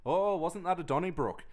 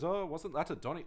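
First: Put-on Apu accent. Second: A hint of Apu's Indian accent, cut off; lightly voiced Apu, higher. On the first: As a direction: imitate Apu's Indian accent. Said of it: "you would say it like that". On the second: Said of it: "I'm not gonna do the accent".

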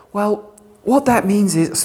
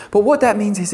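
First: Slow, drawn-out mocking "Well, what that means is"; mock-knowing sarcastic drawl. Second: Said in the usual way. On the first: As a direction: sneer at the usual reading. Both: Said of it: "forgive me being sarcastic".

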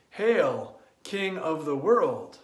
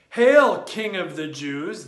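First: Calm, lower hail in honor. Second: Mock shout. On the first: Acted. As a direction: greet the true king with reverence. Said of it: "in deep honor and joy". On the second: Mocking soldiers' greeting.

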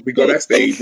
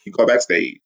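First: Giddy lead-in to the backstage story; excited. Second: Said in the usual way. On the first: Real, not acted. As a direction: say it bursting with glee.

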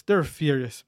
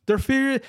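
First: Said in the usual way. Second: "furious" pitched high and punched; "They're furious" with "furious" stressed high; emphatic repeat. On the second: Retold or imitated. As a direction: hit "furious" hard, jumping way up. The guys are fucking furious.

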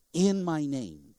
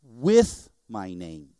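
First: "In" leaned on, slow and measured; deliberate weight on IN, then easing down; stress on IN. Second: "with" hit hard, then low and slow; stretched, weighty WITH, the rest dropping away; stress on WITH. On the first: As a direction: set "In" apart as the correct word. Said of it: "He said". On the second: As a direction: punch the word "with" as the wrong one. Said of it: "he didn't say". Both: Shown as a demonstration.

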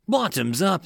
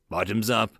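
First: Higher, lightly acted group cheer; cheered toast. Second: Said in the usual way. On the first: A narrator's reading. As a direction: raise the toast with a mild cheer. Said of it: "the men cheered". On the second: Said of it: "the men cheered as they toasted".

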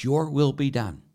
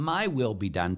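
First: "Your will be done" with "will" raised and louder; "Your will be done", firm and higher on "will"; stress on will. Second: "my" pushed up as the key word, "my will be done"; "my" stressed over "will". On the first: Shown as a demonstration. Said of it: "But that's not what it is". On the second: Retold or imitated. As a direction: lean on "my" in "my will be done" like a selfish prayer. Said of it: "pray this prayer the way they mean it".

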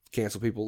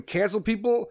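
First: Low, soft flat statement; deadpan answer. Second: Higher, rising, disbelieving; incredulous question. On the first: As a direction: drop it quietly, answering yourself. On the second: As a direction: ask it as if it's absurd. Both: Acted. Rhetorical question then repeat.

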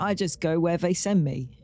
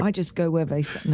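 First: London accent impression; imitated London accent; Michael Caine. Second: Demonstrating a British accent; British-accented line, tried out. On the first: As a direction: do a cockney-style British film star. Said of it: "No, that's Michael Caine". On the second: Shown as a demonstration. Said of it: "You say it with your British accent".

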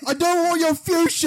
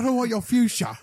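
First: Very high, loud comic shriek; shrieking high shout. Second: High, squeaky comic line. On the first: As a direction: shriek it at the couch. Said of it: "Just be like". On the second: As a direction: squeak it out like a cartoon. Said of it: "just say that line". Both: Acted.

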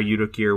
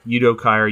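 First: Kier said as KEER, one syllable. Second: Kier said as KY-er, rhyming with fire; Kier as KEE-er. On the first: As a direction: say Kier rhyming with beer. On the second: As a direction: say Kier like the word buyer with a k. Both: Shown as a demonstration. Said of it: "Udo Kier or Udo Kier?".

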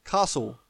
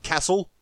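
First: Castle as "CAH-sul", long open A; Castle with a broad "ah"; Australian broad-A pronunciation. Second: Castle as "CASS-ul", short front A; castle with a flat American "aa" vowel; mock American pronunciation. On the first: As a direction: say Castle with the A of "father". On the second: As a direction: say castle with the A of "cat". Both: Shown as a demonstration. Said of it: "not castle".

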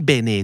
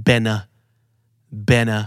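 First: Bene said as Thai-style "beh-nay"; unreduced vowels. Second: Bene said as "BEN-uh"; short bene ending in a neutral "uh"; reduced unstressed vowel. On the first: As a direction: give both vowels of bene full "ay" sounds. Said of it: "ไม่ bene แต่เป็น". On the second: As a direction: weaken the second vowel of bene to uh. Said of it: "พยางค์ที่ไม่ถูกเน้นก็จะเป็น". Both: Shown as a demonstration.

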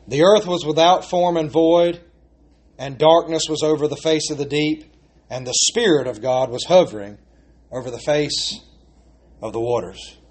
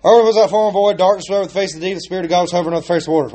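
First: Unhurried reading that fades toward the end; slow reverent reading. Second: Rushing through a familiar verse, very fast; rattled off. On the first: Shown as a demonstration. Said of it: "run right through it". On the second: Retold or imitated. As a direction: race through it without thinking. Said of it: "we just run right through it".

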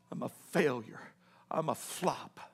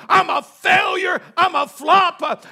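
First: Very low, hushed despair; broken self-reproach. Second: Higher, shouted preacher's acting of despair; anguished self-reproach. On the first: Acted. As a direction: barely voice it, as a defeated man. Peter alone after weeping. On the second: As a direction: cry it out at full force as the broken disciple. Peter berates himself at full force.

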